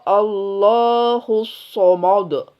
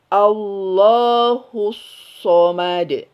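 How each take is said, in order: First: The opening vowel and m sound thick and heavy. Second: The opening vowel and m sound thin and light. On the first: The speaker calls it wrong. "nggak boleh" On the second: The speaker calls it right. "A dari rahang tipis"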